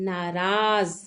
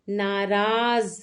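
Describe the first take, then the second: Both takes have the same delivery.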